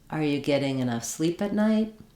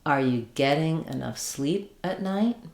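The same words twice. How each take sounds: First: The sentence is spoken at a faster pace. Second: The sentence is spoken at a slower pace. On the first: "Then speeding up a little" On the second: "Let's go with the next one a little slower"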